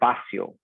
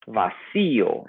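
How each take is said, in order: First: The stress does not fall on the i. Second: The stress falls on the i syllable. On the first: The speaker calls it wrong. "instead of" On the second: The speaker calls it right. "you have to put an accent on the I"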